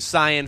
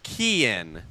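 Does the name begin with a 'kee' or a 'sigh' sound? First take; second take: sigh; kee. First: The name begins with a 'sigh' sound. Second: The name begins with a 'kee' sound. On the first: The speaker calls it wrong. "I've been saying Cyan Phillips for a while" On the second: The speaker calls it right. "It's Kean"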